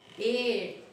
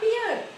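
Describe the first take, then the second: First: The vowel sounds like the one in 'bear'. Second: The vowel sounds like the one in 'beer'. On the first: The speaker calls it right. "but bear" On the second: The speaker calls it wrong. "many of us, you may find, pronounced wrongly. ... Not beer"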